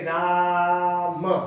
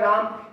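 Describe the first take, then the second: First: The vowel is drawn out for a long time. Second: The vowel is held for a normal short time. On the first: "इसको अगर आप ऐसे बोलेंगे ... प्लुप्त स्वर लगा हुआ है" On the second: "ये नॉर्मल शब्द लिखा हुआ है"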